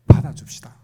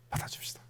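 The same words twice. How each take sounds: First: Loud, forceful urging; emphatic appeal. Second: Very soft, near-whispered urging; hushed appeal. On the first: Preacher urging congregation to accept others' outbursts, loud and emphatic. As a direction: press the appeal on the listeners. Urging listeners, first take. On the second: Preacher urging congregation to accept others' outbursts, softly hushed. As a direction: let the appeal drop to a hush. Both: Real, not acted.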